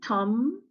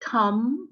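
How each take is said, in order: The two takes are said the same way.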